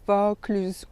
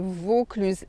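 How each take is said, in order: First: The first vowel is an open O. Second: The first vowel is a closed O. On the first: The speaker calls it wrong. "et pas Vaucluse ouvert" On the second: The speaker calls it right. "O fermé"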